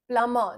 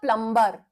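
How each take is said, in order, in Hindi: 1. b की ध्वनि छोड़ दी जाती है। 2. b की ध्वनि साफ़ उच्चारित होती है। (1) "बी बिल्कुल साइलेंट है" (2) "नॉट अ प्लम्बर"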